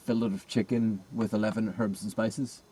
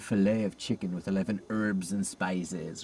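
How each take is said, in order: First: It is said in a non-American accent. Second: It is said in an American accent.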